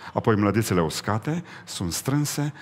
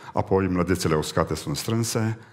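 The two takes are said the same way.

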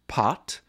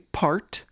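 First: The R sound after the vowel is dropped. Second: The R sound after the vowel is pronounced. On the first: The speaker is from a non-rhotic region like England. "the latter would say" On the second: The speaker is from a rhotic region like the States. "the former would say"

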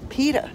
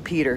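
First: The name ends without any R sound. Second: The name ends with an audible R sound. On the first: "Where did the R go? ... we don't say the R. Not in Cape Cod" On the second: "they don't know how to say Peter down here"

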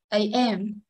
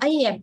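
First: The stress is on the second syllable. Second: The stress is on the first syllable. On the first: The speaker calls it right. "nhấn âm trọng số 2" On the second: The speaker calls it wrong. "Ngày xưa thì mình không biết thì mình đọc là AM"

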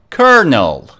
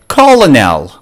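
First: The word is pronounced like 'kernel'. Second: The word is not pronounced like 'kernel'. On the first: The speaker calls it right. "Good job" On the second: The speaker calls it wrong. "Oops, that was a wrong pronunciation"

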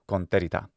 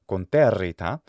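First: The double R is short and quick. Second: The double R is held long. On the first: "the rhythm of the song necessitates that it be sped through" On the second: "the R sound lasts for longer"

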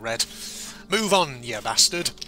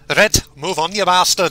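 First: It is said in the speaker's normal accent. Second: It is said in a Scottish accent.

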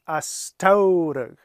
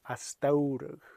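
First: The middle consonant is a strong T sound. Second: The middle consonant is a soft D sound. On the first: The speaker calls it wrong. "If it was a T sound, like a very strong T" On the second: The speaker calls it right. "this T sounds more like a D"

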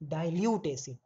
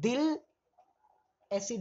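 First: The first word is said fully with two syllables. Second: The first word is clipped to one syllable. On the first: The speaker calls it right. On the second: The speaker calls it wrong.

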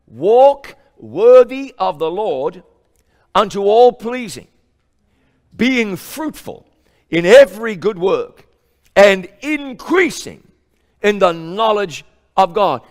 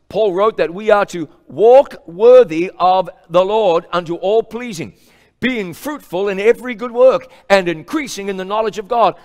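First: It is read in a weighty, solemn way. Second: It is read in a plain, routine way.

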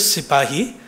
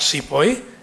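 First: The word is said with three syllables. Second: The word is said with two syllables. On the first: The speaker calls it right. "the word is sipahi" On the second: The speaker calls it wrong. "not sepoy. And the British were as murderous with their pronunciation"

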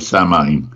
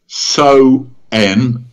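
First: The word is read as spelled, with an m sound. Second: The word sounds like 'so-en', with no m sound. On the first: The word is read from its spelling. The speaker calls it wrong. "If you're English and you see it spelt, you will say Samhain" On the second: The word is said as native speakers say it. The speaker calls it right. "But actually, in the Gaelic, it's So-en"

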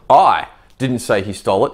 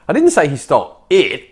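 First: The stress is on "I". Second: The stress is on "it".

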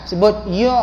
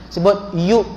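The two takes are said the same way.

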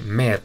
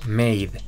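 First: The vowel is a short plain 'e' sound. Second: The vowel is an 'ay' diphthong sound. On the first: The speaker calls it wrong. "debería pronunciarse med, pero no" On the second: The speaker calls it right. "se pronuncia maid"

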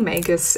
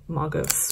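First: It is pronounced in an English-style way. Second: It is pronounced in a Japanese-style way. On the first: "I like to say Magus" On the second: "the Japanese pronunciation would be Magus"

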